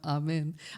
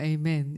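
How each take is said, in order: First: Amen is said with a Nepali pronunciation. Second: Amen is said with an American pronunciation. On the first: "거기 가면 아멘" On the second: "미국 가면 에이멘 이렇게 해야 되겠지만"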